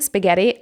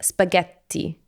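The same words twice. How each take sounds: First: The t sound is short, a single t. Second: The t sound is long, a doubled t. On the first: The speaker calls it wrong. "now I know with one T" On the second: The speaker calls it right. "it has two T's, which would be more like spaghetti"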